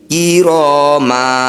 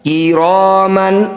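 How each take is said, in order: First: The word ends with a long a vowel. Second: The word ends with an n sound. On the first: The recitation stops at this word. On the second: The recitation continues past this word.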